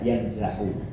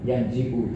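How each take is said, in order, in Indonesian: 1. Huruf vokal setelah z adalah a. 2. Huruf vokal setelah z adalah i. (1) "tidak yanza'u" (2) "ada beberapa kabilah yang mengkasrokan yanzi'u"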